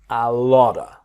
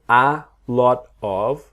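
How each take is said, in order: First: 'Lot of' is blended together into 'lotta'. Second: The word 'of' is pronounced fully and separately. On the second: "So a lot of"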